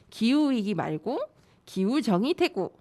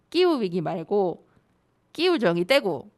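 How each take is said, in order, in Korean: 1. 표준 한국어 억양으로 읽습니다. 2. 경상도 사투리 억양으로 읽습니다.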